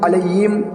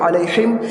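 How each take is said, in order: First: The middle consonant becomes a y sound. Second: The middle consonant is a heavy throaty h. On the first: "हा को या से बदल देते हैं" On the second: "हा को कुछ लोग बड़े हा पढ़ते हैं"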